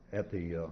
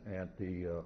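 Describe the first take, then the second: No difference in how they are said.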